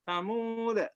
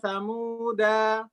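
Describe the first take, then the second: First: The word ends on a bounced, voweless d. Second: The word ends on a vowel after the d. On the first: The speaker calls it right. "Tetap qalqalah disukun" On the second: The speaker calls it wrong. "Jangan sampai berhenti di sini"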